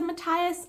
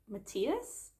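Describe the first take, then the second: First: The name has its common English pronunciation. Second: The name has its Danish pronunciation. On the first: This is how most people and the show say it. "the show also said Matthias, and I think that that's how generally people pronounce that character's name" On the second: This is how the name is said in Denmark. "here in Denmark, ... we say Matthias"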